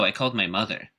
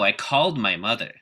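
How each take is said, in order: First: The stress falls on the word mother. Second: The stress falls on the word called. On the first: A neutral answer about what happened. "the first syllable in mother being the stressed syllable" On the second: It insists the call did in fact happen. "shift the focus word to called"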